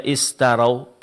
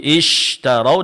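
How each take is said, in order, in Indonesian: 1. Konsonan itu lemah dan terdengar seperti 's'. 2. Konsonan itu bunyi 'sh' yang jelas dan penuh.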